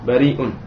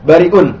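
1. Vokal setelah r panjang. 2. Vokal setelah r pendek. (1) "Dia panjang, tapi bariun" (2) "bukan bariun"

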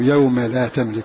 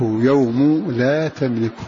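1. تنتهي الكلمة الأولى بحركة 'a'. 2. تنتهي الكلمة الأولى بحركة 'u'. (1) "ويقابل الرفع النصب. الباقون قرأوا" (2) "بالرفع كما تلفظ به"

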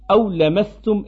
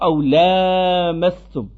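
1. La voyelle après le L est courte. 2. La voyelle après le L est longue. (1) "sans la prolongation du a" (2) "et non pas"

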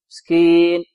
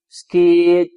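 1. تُقطع النون الأخيرة فجأة. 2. تُقطع النون الأخيرة فجأة.

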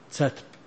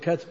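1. الكلمة تبدأ بدون صوت الكاف الخالص. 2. الكلمة تبدأ بصوت الكاف الخالص. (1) "شو يسمونه؟" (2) "لو تقول كاتب ما أعرفه"

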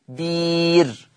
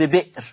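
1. مدّ الياء الطويل يحل محل الهمزة. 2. تأتي الهمزة بعد الحرف الأول. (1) "هتبدل بير" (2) "لفظ بئر هتبدل بير"

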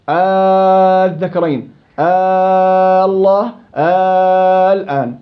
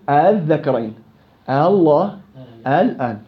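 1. تُبدَل الهمزة ألفًا ممدودًا طويلًا. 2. تُسهَّل الهمزة بين الهمزة والألف. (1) "إبدال همزة الوصل ألف مما ينتج عندي مد لازم كلمي" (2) "تسهيل همزة الوصل بين الهمزة وبين الألف، بنقول"

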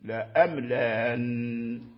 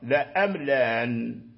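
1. الهمزة الثانية فقط مسهَّلة. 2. الهمزة الثانية فقط مسهَّلة.

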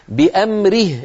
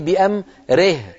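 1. الحركة بعد الراء كسرة خالصة. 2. الحركة بعد الراء تميل إلى الإمالة. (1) "اكسري الراء كسرا كاملا" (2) "ولا تقولي بأمره، ري هذه إمالة"

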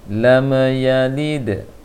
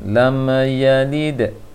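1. Bunyi lam dipantulkan dengan gema. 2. Bunyi lam dipantulkan dengan gema.

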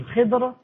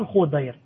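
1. Le nom se prononce Khidr, avec 'i'. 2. Le nom se prononce Khudair, avec 'u'. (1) "On dit Al-Khidr" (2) "On ne dit pas Al-Khodair"

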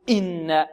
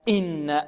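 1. الهمزة الافتتاحية تُنطق بضغط شديد وتكلّف. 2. الهمزة الافتتاحية تُنطق بضغط شديد وتكلّف.

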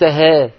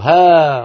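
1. الصائت يميل نحو صوت e. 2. الصائت مفتوح تماماً، مثل a. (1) "ما فيها تقليل هذه" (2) "افتح فمك"

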